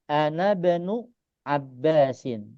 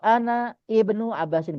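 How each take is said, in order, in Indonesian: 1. Kata ini tersambung tanpa vokal sebelum bnu. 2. Vokal i yang terpisah diucapkan sebelum bnu. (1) "Ini pembacaan yang betul adalah" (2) "boleh juga ... pakai i"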